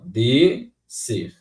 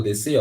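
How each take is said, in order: First: "descer" slowly broken into two separate syllables; split into syllables. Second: Said in the usual way. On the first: Shown as a demonstration. Teacher showing how the word separates, "descer" split slowly into syllables. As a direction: say "descer" syllable by syllable, drawn out with a gap. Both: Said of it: "Se eu separar a palavra descer".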